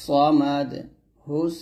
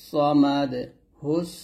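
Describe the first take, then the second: No difference in how they are said.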